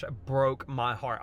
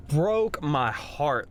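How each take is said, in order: First: Said in the usual way. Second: Drawn out, each word weighed; slow heartbroken. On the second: Real, not acted. Father recalling his son, slow and heartbroken. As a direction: let the words sink slowly.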